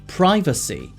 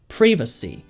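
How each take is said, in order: First: It is said with an American accent. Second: It is said with a British accent. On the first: "미국식 발음은요" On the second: "영국식 같은 경우에는"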